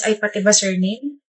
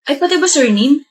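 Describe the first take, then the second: First: Slow, soft, lower mimicry of "ay pati ba surname"; mocking his reply; mimicking him. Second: Said in the usual way. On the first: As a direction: parrot it back mockingly. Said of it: "mimicking repetition". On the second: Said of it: "repeated mockingly next".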